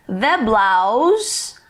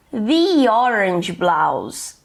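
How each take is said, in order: First: "The blouse" with "The" as "thuh"; short neutral vowel in "The" before "blouse"; THE before a consonant. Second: Very slow "The orange blouse", "The" as "thee"; long ee in "The", gliding into "orange"; THE before a vowel. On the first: English teacher giving an example, "The blouse" said "thuh blouse". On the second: English teacher contrasting examples, slow "thee orange blouse". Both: Shown as a demonstration. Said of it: "a palavrinha que vem em seguida que vai determinar o som".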